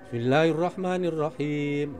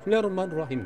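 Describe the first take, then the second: First: It is recited at a moderate speed. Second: It is recited quickly and briskly. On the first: "yang sedang itu" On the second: "yang cepat itu"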